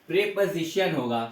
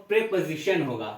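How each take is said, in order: No difference in how they are said.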